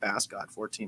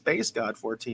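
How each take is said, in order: First: Bass is said with a short vowel, like mass. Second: Bass is said with a long vowel, like face. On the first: The speaker calls it wrong. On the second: The speaker calls it right. "Bass God like a bass guitar"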